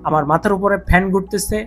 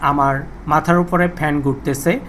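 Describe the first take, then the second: First: Fan noise is filtered out behind the voice. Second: Fan noise is heard behind the voice. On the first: "noise cancellation mode on আছে" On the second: "noise cancellation mode অফ করা আছে"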